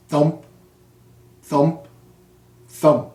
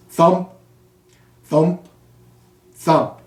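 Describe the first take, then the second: No difference in how they are said.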